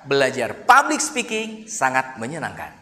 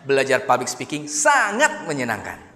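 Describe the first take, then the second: First: The stress falls on public speaking. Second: The stress falls on the word sangat. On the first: "belajar public speakingnya yang kita tekan" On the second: "dikata sangatnya"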